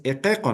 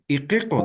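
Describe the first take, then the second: First: "equeco" with open e, e, o; vowels lowered to E and O. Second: "iquico" with i kept as a close ee; pronounced as written. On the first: Teacher recalls the dictated word for the class, vowels lowered to E and O. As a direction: say "equeco" with E and O sounds. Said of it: "se va a pronunciar como si fuera E". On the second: Teacher shows what the spelling seems to say, I vowels as written. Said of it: "Aparentemente dice iquico". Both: Shown as a demonstration.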